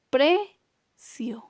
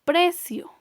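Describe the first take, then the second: First: Precio broken as PRE... cio, with a long pause; split into syllables. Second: Said in the usual way. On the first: Shown as a demonstration. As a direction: say Precio in two separate syllables, stress on PRE. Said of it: "Tiene la mayor intensidad de voz ahora en la penúltima". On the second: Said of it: "Tenemos la palabra".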